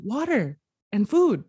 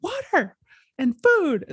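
First: Milder, less high re-enacted call; offering. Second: High imitated demand, pushed louder at the end; mock yell. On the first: Passerby handing over water and food, lifted offering voice. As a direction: hold out what was asked for, voice lifted a little. She presents the items to him. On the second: Screaming man telling passerby his needs, high mock yell. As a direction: act out yelling a need. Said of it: "he's just screaming at nobody".

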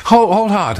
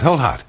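First: Higher, louder "hold hard" cutting in; mock alarm. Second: Said in the usual way. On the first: Host halting the viewer's surgery idea, mock alarm.

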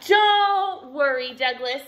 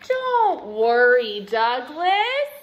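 First: Loud, drawn-out high opening; chirping bird. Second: Loud, slow, rising on the name; reassuring dad. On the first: Swoopy bird swooping in on Douglas, loud chirpy voice. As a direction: chirp it out, falling on the name. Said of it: "chirped a swoopy bird". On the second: Dad reassuring Douglas after hearing everything, slow hearty voice. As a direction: stretch it out, lift the ending. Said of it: "said Dad". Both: A narrator's reading.

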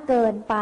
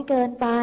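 Both takes have the same delivery.

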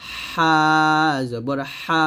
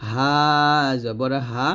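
First: "হা" squeezed from mid-throat; narrow, forceful friction on "হা"; pressed H. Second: "হা" thin from the throat's start; light H. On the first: Teacher shows the two differ, pressed "হা". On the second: Teacher shows the two differ, light "হা". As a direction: keep "হা" open and unpressed. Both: Shown as a demonstration. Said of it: "উচ্চারণ দুটি আলাদা".

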